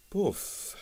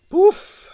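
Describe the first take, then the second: First: Quiet agreeing poof. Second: Very high nervous poof; nervous dismissive poof; uneasy poof. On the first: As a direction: echo it dryly. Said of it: "agreed Quill". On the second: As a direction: puff it out uneasily. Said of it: "said Strogonoff uneasily". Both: A narrator's reading.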